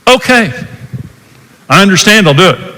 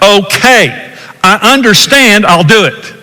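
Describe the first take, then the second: First: It is said in a frustrated tone. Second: It is said in an angry tone.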